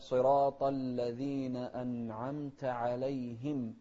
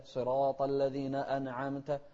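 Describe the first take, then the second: First: أنعمت as "an'amta", n straight into the throat sound; slow, loud, clean n in أنعمت; still nun. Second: Slow verse with أنعمت broken as "ana'amta"; bounced nun mistake. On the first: Shown as a demonstration. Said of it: "لا". (أنعمت بنون ساكنة واضحة) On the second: Retold or imitated. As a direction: put an extra vowel inside أنعمت. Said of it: "ما نقول". (تحريك نون أنعمت خطأً)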